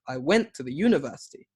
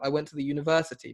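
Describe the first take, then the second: First: University has its stress on an unusual syllable. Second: University has its stress on the usual syllable. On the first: The speaker calls it wrong. "it sounds weird" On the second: The speaker calls it right. "Instead of"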